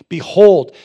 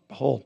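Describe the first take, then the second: First: It is said with excited emotion. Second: It is said flatly without emotion.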